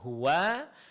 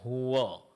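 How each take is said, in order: First: The w sound is light and thin. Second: The w sound is heavy and thick. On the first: The speaker calls it right. "wawnya tetap ditipiskan" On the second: The speaker calls it wrong. "Ini adalah kesalahan"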